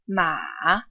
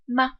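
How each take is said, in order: First: The pitch dips low, then goes back up. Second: The pitch is short, light and unstressed. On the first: "The third tone dips and goes back up" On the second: "the fifth tone is unstressed and neutral"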